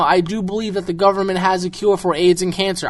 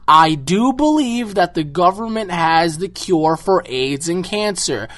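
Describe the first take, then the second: First: The sentence is spoken at a normal pace. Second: The sentence is spoken slowly and deliberately.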